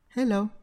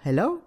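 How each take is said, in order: First: The pitch is high on he, then falls. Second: The pitch is low on he, then rises. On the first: "nâng cao giọng ở chữ he và hạ giọng ở chữ lo" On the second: "bạn hạ giọng chữ he xuống và bạn nâng cao giọng chữ lo"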